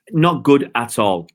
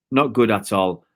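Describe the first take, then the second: First: Slower, stressing NOT; "not good at all" with weight on not; emphatic verdict. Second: Said in the usual way. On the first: Real, not acted. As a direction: lean hard on "not" and drag it out a little.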